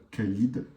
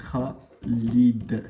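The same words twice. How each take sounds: First: "Khalid" with a plain hard k; French-style Khalid. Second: "Khalid" with a rasped kh, two slow separated syllables; Arabic Khalid. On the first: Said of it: "on a l'habitude de dire". (« Khalid » à la française, avec un k simple) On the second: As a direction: scrape the "Kh" of "Khalid" in the throat. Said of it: "c'est comme par exemple". (« Khalid » avec le kh arabe, raclé) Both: Shown as a demonstration.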